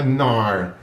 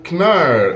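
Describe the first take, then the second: First: The initial K is silent. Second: The initial K is pronounced. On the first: "eu acho que não uso o K. Então é Knar" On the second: "usa o K"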